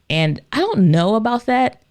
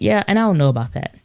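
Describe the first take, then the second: First: The voice rises at the end. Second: The voice falls at the end.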